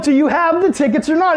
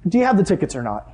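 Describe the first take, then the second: First: Much higher, pressing demand; frustrated. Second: Said in the usual way. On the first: Retold or imitated. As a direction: lose patience with the friend. Frustrated repeat to friend.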